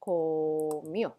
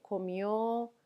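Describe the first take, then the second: First: "comió" split as a long "co", then "mió"; teacher sounding out "comió" in two parts; syllable-by-syllable demo. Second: Said in the usual way. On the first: Shown as a demonstration. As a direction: stretch the first syllable of "comió", pause, then finish. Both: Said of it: "So you go and say".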